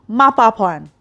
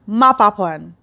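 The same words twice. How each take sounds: No difference in how they are said.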